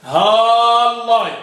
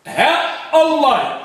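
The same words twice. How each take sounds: First: Long "ها" gliding straight into "الله" with no break; lengthening kept, hamza dropped. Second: High, short "ها", a stop, then "الله"; short vowel, hamza kept. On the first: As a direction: hold the vowel of "ها" and join it to "الله". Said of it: "نترك المد". (مدّ «ها» ووصلها بـ«الله» دون همزة) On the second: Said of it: "حذفنا المد وتركنا ماذا؟". (حذف مدّ «ها» وإبقاء همزة «الله») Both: Shown as a demonstration.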